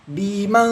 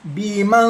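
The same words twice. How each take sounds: First: The nasal sound is light and brief. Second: The same.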